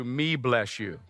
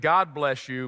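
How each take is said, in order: First: "me bless you" said low and soft as a goofy slip; joking mispronunciation. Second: Said in the usual way. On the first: Shown as a demonstration. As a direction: mumble "me bless you" like a silly mistake. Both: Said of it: "instead of".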